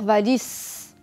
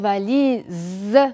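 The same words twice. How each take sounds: First: The middle consonant is a hissing S sound. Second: The middle consonant is a buzzing Z sound. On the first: The speaker calls it wrong. "Je ne vais pas dire valise, c'est faux" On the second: The speaker calls it right. "Je vais dire valise. Je me concentre bien sur le S"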